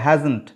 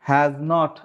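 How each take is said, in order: First: One contracted word with no gap. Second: Two separate words with a long gap. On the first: This is how native British speakers say it. "ওরা বলবে" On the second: This is how Bengali speakers say it. "এত লম্বা চড়া gap দিয়ে বলবো"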